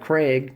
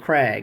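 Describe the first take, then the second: First: The vowel sounds like the one in beg. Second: The vowel sounds like the one in bag. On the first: The speaker calls it wrong. "It's not a Kreg, like the tool company" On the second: The speaker calls it right. "It's a Krag"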